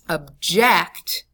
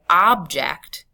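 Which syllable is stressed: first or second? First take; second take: second; first. First: The stress is on the second syllable. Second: The stress is on the first syllable. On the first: It is the verb, meaning to oppose. "the way we pronounce the word when we're using it as a verb" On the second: It is the noun, meaning a thing. "object is a noun"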